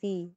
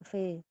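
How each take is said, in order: First: The vowel is a close 'ee' sound. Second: The vowel is an open 'eh' sound. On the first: The speaker calls it right. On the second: The speaker calls it wrong.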